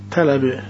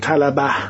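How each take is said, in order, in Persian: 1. مصوت دوم یک 'e' است. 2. مصوت دوم یک 'a' باز است. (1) "ما فتحه رو تبدیل به کسری میکنیم" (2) "ما نمیگیم طلبه، سخته برامون"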